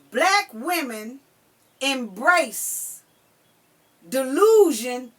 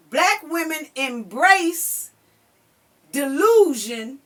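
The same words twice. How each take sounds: The two takes are said the same way.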